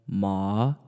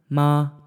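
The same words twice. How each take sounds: First: The pitch dips low and rises slightly. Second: The pitch stays high and level. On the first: "And then third tone" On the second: "First tone"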